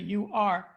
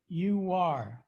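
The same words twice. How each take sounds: First: The two words are said separately, without linking. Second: The two words are joined by a w sound. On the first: The speaker calls it wrong. "You're not going to say you are" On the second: The speaker calls it right. "but you are"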